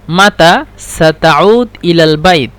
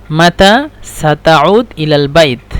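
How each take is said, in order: Both takes have the same delivery.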